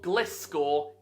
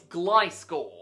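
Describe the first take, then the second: First: The first syllable has a short 'i' sound. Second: The first syllable has a long 'eye' sound. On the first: The speaker calls it wrong. "So it's not Gliscor" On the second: The speaker calls it right. "we say glide, not gli"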